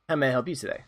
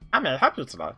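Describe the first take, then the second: First: It is read in his normal voice. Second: It is said in an exaggerated dwarf voice.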